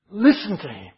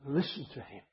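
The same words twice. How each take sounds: First: Listen hit hard, louder, as an order; emphatic command. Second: Much softer, near-whispered listen to him; hushed echo. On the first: Preacher repeating God's command firmly to the flock, emphatic. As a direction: bark the divine order. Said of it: "It's like a command". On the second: Preacher letting the command sink in, softly hushed. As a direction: let it sink in quietly. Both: Shown as a demonstration.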